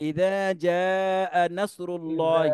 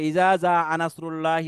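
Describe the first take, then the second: First: The first word has a soft th sound. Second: The first word has a hard z sound. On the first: The speaker calls it right. "কিন্তু শব্দটি" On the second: The speaker calls it wrong. "মারাত্মক ভুল করতেছে"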